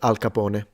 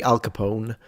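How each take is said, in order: First: The name is said with an Italian pronunciation. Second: The name is said with an English pronunciation. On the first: "he would have said Al Capone. That's the pronunciation" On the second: "in English you say Al Capone"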